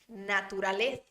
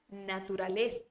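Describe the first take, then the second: First: The z is said with the tongue between teeth. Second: The z is said with the tongue between teeth.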